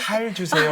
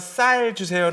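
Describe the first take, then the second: First: It starts with a plain s, Gyeongsang-style. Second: It starts with a tense s sound.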